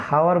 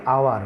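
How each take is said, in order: First: হাওয়ার said with a clear h at the start; হাওয়ার voiced with its h, the way it is not said; wrong h sound. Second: আওয়ার said with no h, opening on the vowel; আওয়ার like English hour with a silent h. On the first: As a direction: breathe an h onto হাওয়ার. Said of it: "এখানে হাওয়ার বলি নাই". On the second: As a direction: drop the h and start আওয়ার on the open vowel. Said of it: "বলেছি আওয়ার". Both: Shown as a demonstration.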